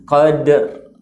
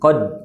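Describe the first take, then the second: First: The word ends with an audible r sound. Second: The word stops at the d with no r. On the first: The speaker calls it right. "Jadi ada ra-nya kita ucapkan" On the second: The speaker calls it wrong. "tanpa sedikit ada uh, getaran ra ... maka kita sebenarnya tidak membaca huruf ra"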